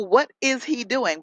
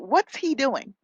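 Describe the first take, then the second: First: "What is" is said as two full words. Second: "What is" is shortened to one syllable. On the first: The speaker calls it wrong. "we can say, oh, what is he doing? But we don't say that" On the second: The speaker calls it right. "we say, what's he doing? We shorten it"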